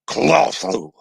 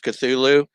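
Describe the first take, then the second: First: The word is said as a guttural grunt. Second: The word is said in a plain, ordinary way. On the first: "more of a kind of grunt than a, a word" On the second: "I usually just use Cthulhu"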